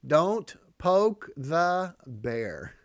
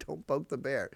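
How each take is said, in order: First: "Don't poke the bear" said very slowly and louder, each word pressed hard; slow emphatic proverb. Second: Said in the usual way. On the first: Shown as a demonstration. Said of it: "Here's the phrase. You ready?". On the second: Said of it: "Here's the phrase".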